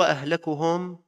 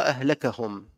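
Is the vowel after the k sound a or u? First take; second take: u; a. First: The vowel after the k is u. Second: The vowel after the k is a. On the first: He is the one most ruined among them. "بضم الكاف" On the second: His words are what ruined them. "وبفتح الكاف"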